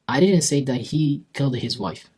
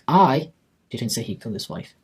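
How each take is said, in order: First: It is said as a plain, neutral statement. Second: The word 'I' carries the stress. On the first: It is a simple statement. "That's a statement" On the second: Someone else said it. "so he didn't say it, probably someone else did"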